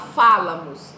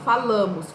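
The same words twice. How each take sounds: First: The stress is on the first syllable. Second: The stress is on the second syllable. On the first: The speaker calls it wrong. "Eu não falo falamos" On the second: The speaker calls it right. "eu falo falamos"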